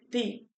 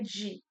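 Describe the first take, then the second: First: The d is a plain hard 'd' sound. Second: The d is softened to a 'dj' sound. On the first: The speaker calls it right. "é de" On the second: The speaker calls it wrong. "não é de"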